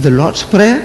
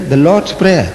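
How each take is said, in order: First: Higher, questioning rise on "Prayer"; retold disbelief, "Prayer" lifted at the end; puzzled echo. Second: Said in the usual way. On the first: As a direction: repeat "Prayer" as a baffled question. Retells his puzzled reaction to it.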